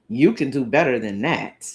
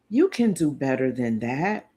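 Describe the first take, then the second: First: It is said in a snarky, irritated tone. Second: It is said in a warm, encouraging tone. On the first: The listener's effort is being dismissed. The speaker calls it wrong. "Wouldn't you be offended" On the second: The listener is being supported to improve. The speaker calls it right. "Sounds like I'm kind of encouraging"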